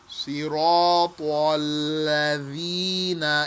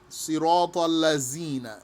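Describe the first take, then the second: First: The consonant is said as th in 'the'. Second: The consonant is said as a z. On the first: The speaker calls it right. "Like in English, if you said the or this or that" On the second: The speaker calls it wrong. "Some people pronounce this with the Z or letter Zai, and that is invalid"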